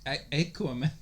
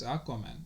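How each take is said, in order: First: "Aquaman" starting with a long AY; long A opening "Aquaman"; old pronunciation. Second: "Aquaman" starting with an open AH; pronunciation with AH. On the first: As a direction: say "Aquaman" as AY-kwuh-man. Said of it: "it used to be". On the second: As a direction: say "Aquaman" as AHK-wuh-man. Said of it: "I think it's Aquaman". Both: Shown as a demonstration.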